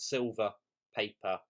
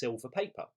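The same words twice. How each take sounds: First: A brief pause separates the two words. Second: The two words run together without a pause. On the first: It names two separate items for sale. "not silver, paper" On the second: It names one item, paper that is silver. "if I removed this comma"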